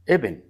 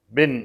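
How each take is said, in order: First: The word starts with an i vowel before b. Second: The word starts directly with the b consonant. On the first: The speaker calls it right. "إنما ابن" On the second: The speaker calls it wrong. "بن هذا غلط شديد فاحش"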